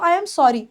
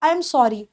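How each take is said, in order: The two takes are said the same way.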